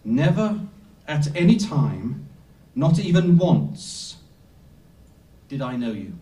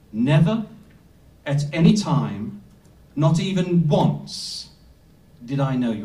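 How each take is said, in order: First: Solemn slowed-down emphasis; emphatic repeat. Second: Weight on Never, any and once, with pauses between phrases; emphatic translation. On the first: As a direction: drive each phrase home, then drop on did I know you. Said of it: "I'm gonna repeat that again". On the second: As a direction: lay it out phrase by phrase, each one heavier. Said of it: "It, it should be translated like this". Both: Shown as a demonstration.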